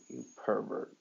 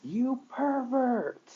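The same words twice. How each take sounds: First: Pouting. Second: Slow, high-pitched scream of outrage. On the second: Uraraka slaps Izuku for kissing her, screaming. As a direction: shriek it out, dragging the word. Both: A narrator's reading.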